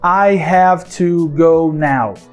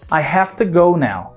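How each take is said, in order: First: Every word gets equal weight and stress. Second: Minor words are reduced; key words are stressed. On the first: The speaker calls it wrong. "A gente não fala todas as palavras como se elas tivessem a mesma relevância na frase" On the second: The speaker calls it right. "A gente fala assim, ó"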